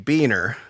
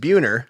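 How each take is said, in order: First: The surname is said the Midwestern way. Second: The surname is said the Californian way. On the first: This is how it is said in the Midwest. "the Midwestern pronunciation would be Beaner" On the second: This is how it is said in California. "When I'm out there, my last name is pronounced Buhner"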